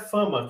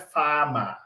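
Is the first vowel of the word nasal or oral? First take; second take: nasal; oral. First: The first vowel is nasalized before the m. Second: The first vowel stays oral before the m. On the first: The speaker calls it wrong. "fama não é fama" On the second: The speaker calls it right. "que fama é fama"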